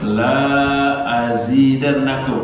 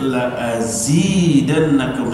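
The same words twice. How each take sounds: First: The opening 'la' has a long, drawn-out vowel. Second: The opening 'la' has a short, clipped vowel. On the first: It becomes a negation: I will not add. The speaker calls it wrong. "nggak boleh la azidannakum" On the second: It is an emphasis: I will surely add. The speaker calls it right. "Wajib dibaca pendek"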